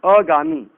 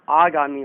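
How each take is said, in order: First: अगामी with a short first "a"; wrong short vowel. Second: आगामी with a long opening "aa"; correct long vowel. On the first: Teacher showing the common mistake, अगामी with short first a. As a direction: open अगामी on a clipped "uh", not "aa". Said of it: "अगामी नहीं होता है". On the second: Teacher giving the correct word, आगामी with long first aa. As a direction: open आगामी on a full "aa". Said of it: "आगामी होता है". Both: Shown as a demonstration.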